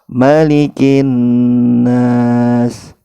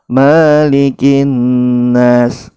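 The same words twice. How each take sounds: First: The vowel after the m is kept short. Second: The vowel after the m is drawn out long. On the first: The speaker calls it right. "mim ini harus kita baca pendek" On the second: The speaker calls it wrong. "kesalahan yang kedua itu malikin nas, memanjangkan huruf mim"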